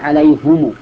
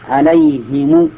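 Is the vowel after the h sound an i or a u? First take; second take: u; i. First: The h is followed by a u vowel. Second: The h is followed by an i vowel. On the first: This is another accepted reading. "والفرق بينهم ضم الهاء" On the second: This is the widely known reading. "وهي مشهورة الآن"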